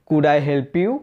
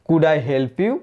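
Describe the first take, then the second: The two takes are said the same way.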